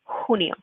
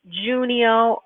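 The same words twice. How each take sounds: First: The word begins with an h sound. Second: The word begins without an h sound. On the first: The speaker calls it right. "that you're saying the h sound" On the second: The speaker calls it wrong. "we're not saying like junio"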